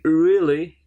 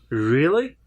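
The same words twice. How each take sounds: First: It is said flatly, without any enthusiasm. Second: It is said with lively, interested energy. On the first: The speaker is not interested. The speaker calls it wrong. "it doesn't show any kind of interest or a kind of, you know, enthusiasm" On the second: The speaker is interested and enthusiastic. The speaker calls it right. "so really interest"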